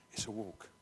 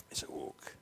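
First: "It's a walk." said low and soft; soft low repeat; quiet. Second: "It's a walk." whispered; whispered echo. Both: Shown as a demonstration. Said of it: "repeated as whisper".

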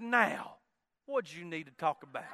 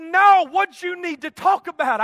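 First: Imitated wife, gently asking as it drops lower; soft coaxing. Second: Imitated wife, high and forceful; loud insistent demand. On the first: Wife hugs husband and asks what's wrong, soft coaxing. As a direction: ask softly, trailing down in pitch. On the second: Wife presses husband to say what's wrong, loud and insistent. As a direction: press for an answer, raised in pitch and volume.

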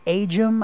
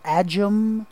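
First: "Ajum" opening with the letter-name A; long-A pronunciation. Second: "Ajum" opening with the A of "badge"; short-A pronunciation. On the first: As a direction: say "Ajum" as AY-jum. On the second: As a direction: say "Ajum" as AD-jum. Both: Shown as a demonstration. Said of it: "I don't know how to pronounce it".

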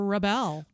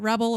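First: "rebel" as re-BEL, like the verb; stress on second syllable. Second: "rebel" as REB-ul, like the noun; stress on first syllable. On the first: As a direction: hit the last syllable of "rebel". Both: Shown as a demonstration. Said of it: "which one is it".

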